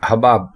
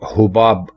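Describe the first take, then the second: First: The first vowel is a, ha-baab. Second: The first vowel is u, hu-baab. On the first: The speaker calls it right. "हबाब दुरुस्त है" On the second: The speaker calls it wrong. "हुबाब गलत है"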